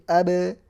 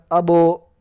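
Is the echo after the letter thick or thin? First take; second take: thin; thick. First: The echo after the consonant sounds light and thin. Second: The echo after the consonant sounds heavy and dark. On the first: The speaker calls it right. "pantulannya itu tipis" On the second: The speaker calls it wrong. "Jadi bukan abo"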